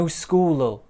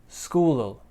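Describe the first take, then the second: The two takes are said the same way.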